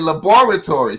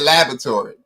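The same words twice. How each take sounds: First: Every syllable is pronounced fully and distinctly. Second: The middle vowel is reduced and barely heard. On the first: "we emphasize every syllable and every word, I, I say laboratory" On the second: "Americans say laboratory ... they missed that A in the middle"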